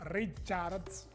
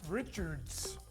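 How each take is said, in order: First: The name is said with a Spanish pronunciation. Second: The name is said with an English pronunciation. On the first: The speaker calls it wrong. "instead of saying Richards" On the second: The speaker calls it right. "pronounce the last names of the players as they should be in their native tongue"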